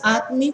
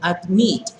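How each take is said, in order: First: The stress is on the first syllable. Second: The stress is on the last syllable. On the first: The speaker calls it wrong. "No es admit" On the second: The speaker calls it right. "Lleva el acento en la última sílaba"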